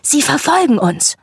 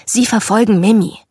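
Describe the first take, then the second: First: Put-on excited child's exclamation, pitched higher. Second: Mildly snapped correction; snapping. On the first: Brother turning to sister in the mobbed car, excited. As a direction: exclaim it with delight, voice lifting high. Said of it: "meinte begeistert". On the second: Sister correcting her excited brother in the car, snapping. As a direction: snap back at a little brother, understated. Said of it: "Ich blaffte ihn an". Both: A narrator's reading.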